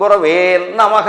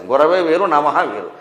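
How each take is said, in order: First: "గురవే నమః" run together with a long doubled n on నమః; wrongly doubled n. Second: గురవే and నమః said apart, with a single n; separated words. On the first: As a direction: drag గురవే into a heavy nn opening నమః. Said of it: "నా కింద నా ఒత్తి ఎడతాడు". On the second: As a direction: split గురవే from నమః, no doubling of the n. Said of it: "ఎక్కడ విసర్గలు ఉంటాయో తెలియదు". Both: Shown as a demonstration.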